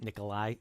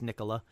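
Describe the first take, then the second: First: The name ends with an 'eye' sound. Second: The name ends with an 'ah' sound. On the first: The speaker calls it wrong. "I did just mispronounce it" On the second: The speaker calls it right. "it's Nikola"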